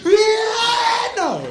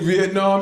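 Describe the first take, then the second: First: The word is said proudly, with dramatic feeling. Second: The word is said flatly, without special feeling. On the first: "she say it with pride" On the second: "She never just say Vietnam"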